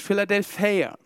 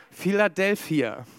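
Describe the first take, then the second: First: Philadelphia in a Greek way, with the ending closer to -ea; Greek pronunciation. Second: Said in the usual way. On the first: Shown as a demonstration. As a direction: say Philadelphia the way Greek would sound it. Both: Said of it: "Oder griechisch".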